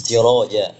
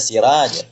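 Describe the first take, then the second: First: Siroja with a thick, heavy ro; correct pronunciation. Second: Siraj said with a thin, light ra; wrong pronunciation. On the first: Teacher demonstrating the correct thick siroja. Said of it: "kalimat intinya siroja". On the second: Teacher demonstrating the wrong thin siraj. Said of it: "Maka jangan dibaca siraj". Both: Shown as a demonstration.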